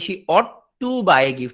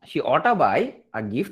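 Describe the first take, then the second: First: 'Ought to' is said fully as two words. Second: 'Ought to' is shortened and run together as 'oughta'.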